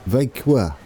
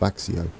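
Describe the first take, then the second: First: The name is said with a soft, French-like ending. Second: The name is said with an anglicized 'ks-ee-oh' ending. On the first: The speaker calls it right. "It's almost French" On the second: The speaker calls it wrong. "the one I've been calling Vaxio"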